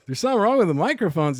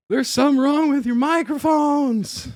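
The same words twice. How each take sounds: First: Quick, raised incredulous question; acted puzzled double-take; surprised echo. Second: High, loud, winded cry of alarm; high-pitched mock breathless yell; mock out of breath. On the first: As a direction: echo it back in disbelief, fast. Startled echo of the runner's warning. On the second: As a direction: imitate a winded man blurting out an urgent warning. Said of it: "He's so out of breath".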